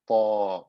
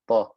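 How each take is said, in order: First: The vowel is stretched out long. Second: The vowel is cut short, not stretched. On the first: The speaker calls it right. "I have to stretch them" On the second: The speaker calls it wrong. "If I didn't pronounce them with mad, they wouldn't come out. I would just say"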